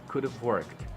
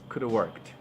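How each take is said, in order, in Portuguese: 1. 'Could' e 'have' são falados juntos, como um só. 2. 'Could have' é reduzido até 'coulda'. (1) "Ele vai juntar o could have" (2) "você pode reduzir ainda mais, você pode falar simplesmente coulda"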